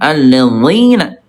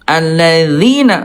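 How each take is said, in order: First: The dh consonant is heavy and thick. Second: The dh consonant is light and thin. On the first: The speaker calls it wrong. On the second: The speaker calls it right.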